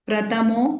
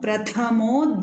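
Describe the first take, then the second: First: The second-syllable consonant is plain, without breath. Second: The second-syllable consonant is aspirated, with breath. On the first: The speaker calls it wrong. "Here also you missed Mahapranas" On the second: The speaker calls it right. "three Mahapranas will come here"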